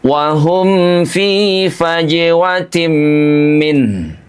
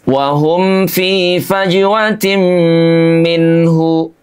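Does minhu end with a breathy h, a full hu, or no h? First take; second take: breathy h; full hu. First: The word ends with a soft breathy h. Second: The final syllable is said as a full hu. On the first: The speaker calls it right. "setelah itu keluarkan bunyi ah" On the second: The speaker calls it wrong. "hu-nya dibaca jelas"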